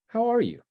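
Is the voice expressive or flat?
expressive. It is said with lively, expressive inflection. The speaker calls it right.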